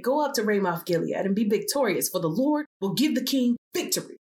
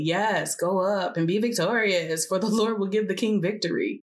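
First: Prophets' earnest assurance, lifting on the promise; agreeing prophets. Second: Mildly sarcastic, held-back agreement. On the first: Prophets promising the king victory, agreeing. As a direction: assure the king, a little raised. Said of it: "All the other prophets agreed". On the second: Micaiah answering the king about the battle, mildly sarcastic. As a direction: agree with a touch of mockery. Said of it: "Micaiah replied sarcastically". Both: A narrator's reading.

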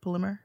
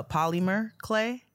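First: "Polymer" squeezed shorter as P'LIM-er, questioning; questioned pronunciation. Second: "polymer" slowly as POL-ee-mer, rising on "clay"; unsure pronunciation. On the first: Host checking an unfamiliar word, "Polymer" as a rising P'LIM-er. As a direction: try "Polymer" with a swallowed first vowel. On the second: Host stumbling on a listener's letter, "polymer" sounded out as POL-ee-mer. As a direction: try out "polymer" in three full syllables. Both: Shown as a demonstration. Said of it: "Is that polymer?".

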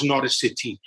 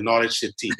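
First: Put-on accidental touch of Welsh accent. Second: Said in the usual way. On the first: Host saying whose match he will watch, in a stray Welsh accent. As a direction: slip into a light Welsh accent. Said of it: "did that with a Welsh accent". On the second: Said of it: "I don't know why I did that with a Welsh accent".

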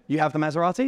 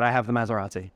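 First: "Maserati" asked with a rising tune; doubtful query, lift at the end on "Maserati"; questioning rise. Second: "have" stressed, falling tune to the end; calm matter-of-fact answer, hit "have"; flat confirming statement. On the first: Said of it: "he looked at me and said". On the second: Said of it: "And I said". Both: Retold or imitated.

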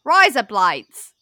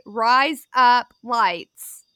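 First: 'Rise up lights' run together as Australian 'razor blades'; loud, stretched Australian 'Rise up lights'; Australian accent. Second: 'Rise up lights' word by word, very slowly; slow, distinct 'Rise... up... lights'; slow demonstration. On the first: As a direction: blend the words into an Australian accent. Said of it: "Listen for razor blades". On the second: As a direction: separate each word like a coach, louder. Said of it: "that sounds like razor blades". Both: Shown as a demonstration.

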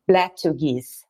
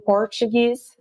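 First: "Portuguese" changed to BLACK-tu-geez; blended Blacktuguese pronunciation. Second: Said in the usual way. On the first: Shown as a demonstration. Guide explains the writer's blend, "Portuguese" turned into black-tu-geez. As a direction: swap the first syllable of "Portuguese" for black. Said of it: "mixed the word black and Portuguese". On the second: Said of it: "instead of saying Portuguese".

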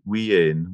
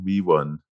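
First: "we ain" in Scots dialect form; Scots pronunciation. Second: Said in the usual way. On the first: Shown as a demonstration. Author explains a Scots word to the host, Scots pronunciation. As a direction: say "we ain" as a Scot says wee one. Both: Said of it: "it means we".

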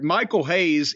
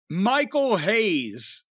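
First: Said in the usual way. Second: "Michael Hayes" drawn out very slowly, each name weighted; dramatic announcement. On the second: Real, not acted. Telling his co-host about Rock's first night, a slow dramatic "Michael Hayes".

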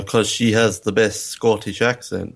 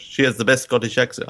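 First: Mistaken attempt at Scottish accent. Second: Quick, badly faked French accent; failed French accent. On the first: Host retelling the film's joke, in a light Scottish accent. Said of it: "he's not Scottish". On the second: Host correcting his retold film line, in a poor French accent. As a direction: make a weak stab at French. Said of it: "I can't do French".

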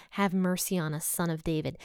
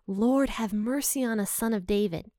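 First: Said in the usual way. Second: Slightly raised, pleading call; mild crying out. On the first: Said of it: "think about that phrase they say". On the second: Retold or imitated. Blind men calling to Jesus for mercy, mildly crying out. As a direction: call out for mercy without shouting. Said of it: "they start crying out to Jesus".

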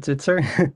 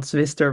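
First: "Zwitser" with t before s; correct Dutch surname. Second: "Zwister" with s before t; mispronounced surname. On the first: Guest shows the host his surname, pronounced "Zwitser". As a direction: say "Zwitser", a ts sound in the middle. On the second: Guest corrects the host's version of his surname, mispronounced as "Zwister". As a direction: say "Zwister", the st cluster in the middle. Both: Shown as a demonstration. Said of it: "not Zwister, but Zwitser".

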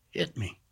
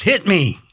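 First: Soft plea. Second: Higher, louder urging; intense demand. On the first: Attacker asking the homeowner softly to hit him. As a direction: say it almost under the breath. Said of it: "Real soft". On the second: Attacker urging the homeowner to strike, loud and intense. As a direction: push it hard and loud. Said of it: "And then more intense". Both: Retold or imitated.

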